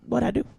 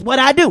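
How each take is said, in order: First: It sounds calm and cooperative. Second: It sounds demanding and confrontational. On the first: The question is asked without escalating. The speaker calls it right. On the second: The question escalates the situation. The speaker calls it wrong.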